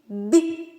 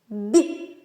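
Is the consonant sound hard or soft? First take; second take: soft; soft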